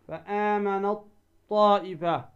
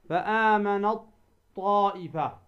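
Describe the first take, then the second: Both takes have the same delivery.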